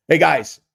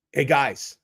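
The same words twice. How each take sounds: First: Punchy, louder hey guys; louder hello to the chat; loud greeting. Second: Said in the usual way. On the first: Shown as a demonstration. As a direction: call out Hey, guys with a strong Hey.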